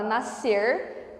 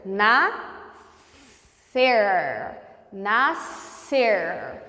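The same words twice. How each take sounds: First: Said in the usual way. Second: "nascer" split slowly into na and scer, lingering on one S sound; syllable by syllable. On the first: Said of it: "na palavra nascer". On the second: Shown as a demonstration. Teacher showing S and C as one sound in "nascer", slow syllables. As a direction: draw out "nascer", SC as a single long S. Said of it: "Você pronuncia o S e o C como".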